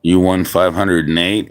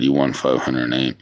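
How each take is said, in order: First: Rising tune on eight, asking it; You won five hundred and eight? said as a real question; surprised question. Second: You won five hundred and eight. flat, confirming; settled statement. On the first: To the viewer over the score, rising in surprise. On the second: Repeating the score to himself, calm and lower. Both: Real, not acted.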